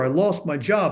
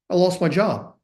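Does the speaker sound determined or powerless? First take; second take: powerless; determined. First: It sounds fearful, weak and helpless. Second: It sounds calm, steady and empowered. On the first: Everything has collapsed and nothing can be done. The speaker calls it wrong. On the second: There is still the possibility to act. The speaker calls it right.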